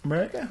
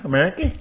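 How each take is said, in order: First: Said in the usual way. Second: America ending in a long "ee"; altered pronunciation. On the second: Shown as a demonstration. Same word repeated in altered pronunciation.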